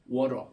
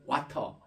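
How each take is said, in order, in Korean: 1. 중간 자음은 탄설음인 R 소리로 바뀝니다. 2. 중간 자음은 분명한 T 소리입니다. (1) "미국에서는 아예 이거를 R 발음으로 해버려요" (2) "영국식 영어는 와터 이렇게 T 발음을 분명히 하는데"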